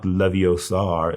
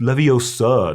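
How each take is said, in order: First: "Leviosar" slowly, with a drawn-out final "ar"; mispronunciation. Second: "Leviosa" in a higher, fussy correction; corrected pronunciation. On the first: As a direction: show "Leviosar" as the mistake to avoid. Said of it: "not Leviosar". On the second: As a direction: model "Leviosa" as the right way to say it. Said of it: "it's Leviosa, not Leviosar". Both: Acted.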